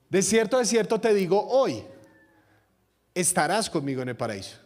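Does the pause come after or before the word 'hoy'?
after. There is a pause just after 'hoy'.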